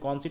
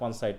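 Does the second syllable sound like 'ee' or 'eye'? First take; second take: ee; eye. First: The second syllable has an 'ee' vowel. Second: The second syllable has an 'eye' vowel. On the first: The speaker calls it right. "আমি বলছি কনসিট" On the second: The speaker calls it wrong. "তুমি বলছো কনসাইট"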